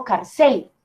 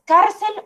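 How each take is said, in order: First: "carcel" slow, leaning on final CEL; stress on last syllable. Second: "cárcel" slow, leaning on CAR; stress on first syllable. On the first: Teacher compares two options for students, "carcel" wrongly stressed on CEL. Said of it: "toca exagerar un poco". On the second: Teacher compares two options for students, "cárcel" stressed on CAR. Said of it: "el golpe recae en esta primera parte". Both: Shown as a demonstration.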